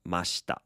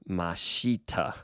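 First: The vowel after sh is reduced. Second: The vowel after sh is fully voiced. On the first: The speaker calls it right. "they really should reduce the E and just say mashita" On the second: The speaker calls it wrong. "they want to say mashita"

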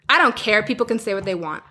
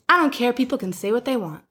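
First: It is said in a sharp, snippy tone. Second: It is said in a casual, easygoing tone. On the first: The person seems hostile and defensive. "I'm saying that in a tone" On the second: The person genuinely doesn't mind. "She probably didn't say it like that. It was more like probably"

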